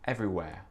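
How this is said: The final R is soft, nearly dropped. "le R à la fin des mots n'existe pas vraiment. C'est très doux"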